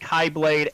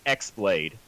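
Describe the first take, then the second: First: The first syllable sounds like kai. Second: The first syllable sounds like ex. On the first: "Some pronounce it Kai" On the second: "It's the letter X blade"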